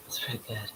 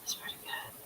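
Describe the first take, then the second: First: Said in the usual way. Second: Whispered while holding breath. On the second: Real, not acted. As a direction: squeeze it out on held breath. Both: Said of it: "I gotta hold my breath one more time".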